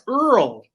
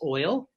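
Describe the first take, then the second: First: The word is said sounding like earl. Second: The word is said with a standard oi vowel. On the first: "the people would pronounce oil Earl" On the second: "I said, "It's oil.""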